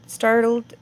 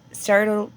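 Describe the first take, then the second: No difference in how they are said.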